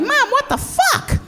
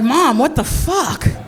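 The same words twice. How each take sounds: First: It is said in a little girl's voice. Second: It is said in an ordinary adult voice. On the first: "I was a little girl" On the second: "I didn't say it like that"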